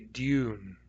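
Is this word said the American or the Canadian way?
Canadian. The word is said with a Canadian pronunciation. "Some of you grew up in Canada, you might say dune"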